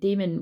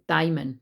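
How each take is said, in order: First: It is pronounced like the word demon. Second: It is pronounced differently from the word demon. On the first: It names an evil spirit. The speaker calls it wrong. "No daemon, that's like the devil" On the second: It names a person's inner genius. The speaker calls it right. "sorry, is how you say it"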